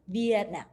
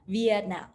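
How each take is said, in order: The two takes are said the same way.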